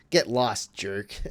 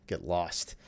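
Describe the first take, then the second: First: Teasing a friend over a bad pick, loud Get; louder playful jab. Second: Said in the usual way. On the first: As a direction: stress on Get, punched louder. Mock insult to a friend.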